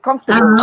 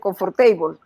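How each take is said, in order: First: The ending is short, reduced and unstressed. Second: The ending sounds like the full word table. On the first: The speaker calls it right. "y es comfortable" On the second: The speaker calls it wrong. "porque table como table, entonces dicen comfortable"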